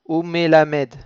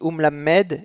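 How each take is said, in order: First: A short vowel follows the first m. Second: The first m closes the syllable with no vowel. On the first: The speaker calls it wrong. "et pas umelamed" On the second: The speaker calls it right. "On dit um lammed"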